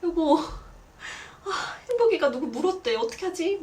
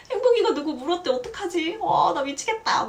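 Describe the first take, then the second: First: Higher, flustered mock panic; panicked call. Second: Much higher, louder, fast panicked wail; frantic panic. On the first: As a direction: stammer it out like a startled mom phoning her husband. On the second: Retold or imitated. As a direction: spill it out fast like you're losing it. Panicking to her mother.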